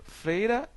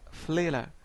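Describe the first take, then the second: First: Said in the usual way. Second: Fleira with an l in place of the r. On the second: Shown as a demonstration. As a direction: say fleira, not freira. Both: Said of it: "Nós temos aqui exemplo".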